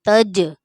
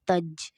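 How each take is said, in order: First: The final j bounces with a slight echo. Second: The final j stops flat without a bounce. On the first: The speaker calls it right. "कलकला का मतलब ये है कि आवाज़ जो है वो पलटती हुई महसूस होती है" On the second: The speaker calls it wrong. "तज ऐसे नहीं"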